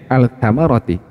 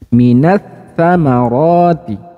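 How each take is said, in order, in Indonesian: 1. Bunyi L terdengar jelas sebelum konsonan berikutnya. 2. Bunyi L melebur ke konsonan berikutnya yang bertasydid. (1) "jadi bunyi kan awalnya al-samarati" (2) "dileburkan bunyi lam sukunnya ke huruf ta"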